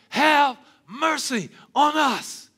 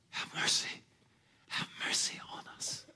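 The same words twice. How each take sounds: First: Slow, loud, high shout of "Have mercy on us"; loud plea. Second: Soft, breathless whisper of "Have mercy on us"; whispered plea. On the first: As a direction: belt "Have mercy on us" like a desperate cry. Lepers crying out for mercy. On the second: Need shown without words. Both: Retold or imitated.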